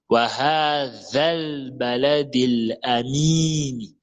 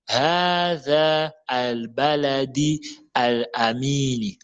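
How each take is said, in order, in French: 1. La voyelle finale enchaîne directement sur le 'l'. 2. Les mots restent séparés avec un 'al' plein. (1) "on fait la liaison avec le le le za et le lam" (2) "On ne dit pas"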